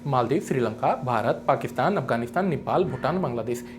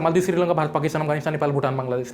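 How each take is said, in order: First: Short pauses separate each country name. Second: The country names run together without pauses. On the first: The speaker calls it right. "यहां पे gap कम है, मैं यहां पे gap use भी कर रहा हूं" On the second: The speaker calls it wrong. "मैं ऐसे नहीं बोल रहा"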